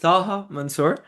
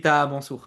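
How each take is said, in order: First: The name is said with English sounds. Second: The name is said with French sounds.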